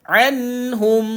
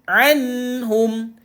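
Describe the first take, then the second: Both takes have the same delivery.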